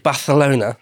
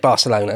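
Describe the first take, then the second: First: The name is said with Spanish sounds. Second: The name is said with English sounds. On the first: "It's like, ooh" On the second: "I'll just say Barcelona, it's fine"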